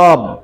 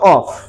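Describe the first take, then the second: First: The word ends with a voiced v sound. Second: The word ends with a voiceless f sound. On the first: The speaker calls it right. "It will be প্রনাউন্সড as অব" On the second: The speaker calls it wrong. "Not অফ। আমি কিন্তু অফ বলতে কাউকে বলি নাই।"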